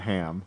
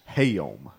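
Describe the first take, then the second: First: The vowel is short, in one syllable. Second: The vowel is drawn out into two syllables. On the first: "Not ham" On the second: "You have been pronouncing it as hayom"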